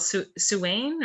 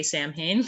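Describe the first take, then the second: First: Suwain said slowly as soo-WAYN; unsure, stretched-out Suwain; tentative pronunciation. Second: Samhain said as SAM-hayn; Samhain in two parts, SAM-hayn; English pronunciation. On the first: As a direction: try Suwain haltingly, with a w in the middle. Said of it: "what's it called?". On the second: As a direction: say Samhain with m and h sounded. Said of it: "I usually say Samhain 'cause I'm English". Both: Shown as a demonstration.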